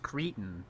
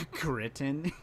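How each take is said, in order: First: "cretin" said as "CREE-tin", slowly; corrective pronunciation. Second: "Cretin" with a short i, rising like a question; questioned pronunciation. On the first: Shown as a demonstration. Correcting how the video says it, corrective pronunciation. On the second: Retold or imitated. Mocking the video's word choice, questioned pronunciation. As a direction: query "Cretin" as "CRIT-in", voice lifting. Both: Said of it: "It's pronounced cretin".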